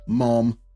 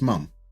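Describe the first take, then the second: First: It is said with the vowel of 'mom'. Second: It is said with the vowel of 'mum'. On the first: This is how others say it. The speaker calls it wrong. "the way they say mom" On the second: This is the speaker's own way of saying it. The speaker calls it right. "It's mum"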